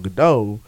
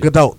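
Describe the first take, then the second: First: The final T is silent. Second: The final T is sounded. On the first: The speaker calls it wrong. "The T is pronounced" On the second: The speaker calls it right. "you pronounce the T"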